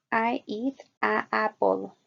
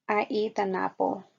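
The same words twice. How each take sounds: First: "a apple" said with a long a into apple, no linking n; the clumsy "a apple" with the vowels running together; wrong a before apple. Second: "an apple" with the n linking into apple; correct "an apple". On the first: Teacher showing students the wrong form, a drawn-out "a apple". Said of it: "diría". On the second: Teacher showing students the right form, a linked "an apple". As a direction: link "an" smoothly onto apple. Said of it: "podemos leer". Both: Shown as a demonstration.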